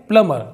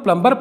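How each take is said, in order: First: The b sound is silent after the m. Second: The b sound is pronounced after the m. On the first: The speaker calls it right. "लेकिन यह है प्लमर, क्योंकि यहाँ पर भी M के बाद बी silent है" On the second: The speaker calls it wrong. "इसको सब लोग प्लम्बर पढ़ते हैं"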